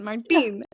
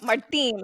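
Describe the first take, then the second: First: The name is said with a Spanish accent. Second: The name is said with an English accent.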